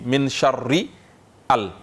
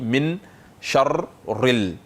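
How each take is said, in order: First: The article's initial vowel is pronounced separately. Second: The article's initial vowel is silent and linked. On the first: The speaker calls it wrong. "on ne peut pas dire min sharri al" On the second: The speaker calls it right. "Donc on dit min sharril"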